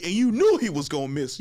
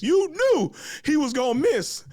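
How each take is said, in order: First: Said in the usual way. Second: Knew pitched much higher, louder and slower; drawn-out emphatic knew, much higher; stress on knew. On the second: Shown as a demonstration. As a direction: lean hard on knew, slow and high.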